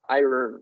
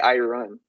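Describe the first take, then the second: First: The second part sounds like the word earn. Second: The second part sounds like the word run. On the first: The speaker calls it right. "I earn. Like e earn" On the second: The speaker calls it wrong. "I don't say I run. We don't say that in English"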